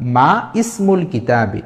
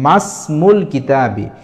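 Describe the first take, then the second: First: The vowel of 'ismul' is pronounced separately after 'ma'. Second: The vowel of 'ismul' is dropped, merging into 'masmul'. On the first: The speaker calls it wrong. "এটা হলো ভুল উচ্চারণ।" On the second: The speaker calls it right. "এখানে উচ্চারণ হবে মাসমুল কিতাবি।"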